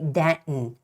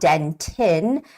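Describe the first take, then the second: First: The middle T is soft, barely released. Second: The middle T is pronounced clearly and hard. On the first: The speaker calls it right. "but rather say Denton" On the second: The speaker calls it wrong. "make that distinguished sound for T"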